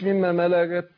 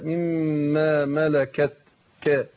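First: The final k sound is lost. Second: The final k sound is clearly articulated. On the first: The speaker calls it wrong. "يعني أضيع الكاف" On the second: The speaker calls it right. "لا"

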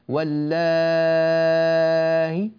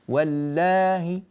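First: The long vowel is held for a long time. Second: The long vowel is held only briefly. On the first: "6 حركات" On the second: "هكذا حركتان فقط"

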